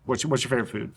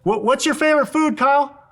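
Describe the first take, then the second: First: Much softer, lower, as to someone right beside you; quiet close-up question. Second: Shouting across the room. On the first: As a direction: ask gently up close. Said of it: "Just come close". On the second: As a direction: project to someone far away. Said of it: "He's shouting 'cause he's far away". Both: Shown as a demonstration.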